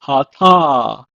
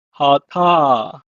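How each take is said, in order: First: Hata said as ha-ta, clear; Hebrew pronunciation. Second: Hata repeated as ha-ta; Hebrew pronunciation. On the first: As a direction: model Hata for learners. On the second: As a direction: model Hata again. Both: Shown as a demonstration. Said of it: "pronounced as".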